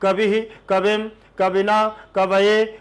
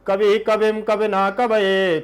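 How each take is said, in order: First: It is recited slowly. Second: It is recited at double speed. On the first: "पहले धीरे से पढ़ना है" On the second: "double लेना है, दुगुन जिसे बोलते हैं"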